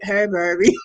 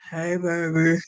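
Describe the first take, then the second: First: It is said in a higher, non-deep voice. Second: It is said in a deep voice. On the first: The speaker calls it right. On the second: The speaker calls it wrong.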